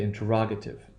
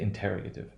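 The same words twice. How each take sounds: First: The stress shifts to a different syllable. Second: The stress sits where 'interrogate' has it. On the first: The speaker calls it right. "but we say interrogative" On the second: The speaker calls it wrong. "we don't say interrogative"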